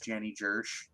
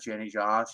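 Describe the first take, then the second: First: Josh is said with an 'er' vowel, as Jersh. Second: Josh is said with a normal 'o' vowel. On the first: "it's Janny Jersh" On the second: "is not Janny Josh"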